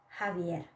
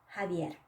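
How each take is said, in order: The two takes are said the same way.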